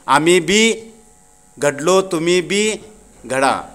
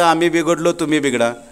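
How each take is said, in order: First: Read carefully with breaks between the words. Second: Read fast with the words run together. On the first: We also got shaped, you get shaped too. The speaker calls it right. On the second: We got spoiled, you get spoiled too. The speaker calls it wrong.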